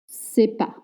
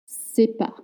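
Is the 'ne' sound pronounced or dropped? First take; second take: dropped; dropped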